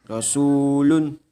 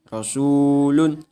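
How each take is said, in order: The two takes are said the same way.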